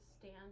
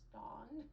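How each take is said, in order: First: The vowel is the usual short a sound. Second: The vowel is an open aw sound.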